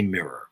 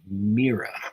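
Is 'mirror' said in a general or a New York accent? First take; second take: general; New York. First: It is said without the New York pronunciation. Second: It is said with the New York pronunciation. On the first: "I say mirror, and that is not very common in New Yorkese" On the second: "Most of my friends say mirror"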